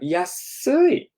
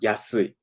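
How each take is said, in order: First: It is drawn out and elongated. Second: It is said at normal length.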